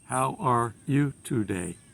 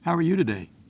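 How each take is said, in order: First: It is read flatly, without expression. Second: It is acted with lively, natural expression. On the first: The speaker calls it wrong. "You can't read the lines" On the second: The speaker calls it right. "You have to act the lines"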